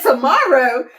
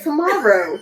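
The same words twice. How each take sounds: First: Amused, questioning tomorrow; retold disbelief with a laugh in it; surprised echo. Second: Said in the usual way. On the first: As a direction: repeat it back as if caught off guard. She echoes tomorrow, taken aback.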